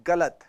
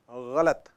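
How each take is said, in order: First: गलत with a hard Hindi g; गलत said with plain ग; wrong गलत. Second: गलत with a throaty gh sound; गलत said with Urdu ग़. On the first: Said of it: "it's not गलत". (हिंदी ग से गलत) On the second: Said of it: "it's गलत". (उर्दू ग़ से ग़लत) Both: Shown as a demonstration.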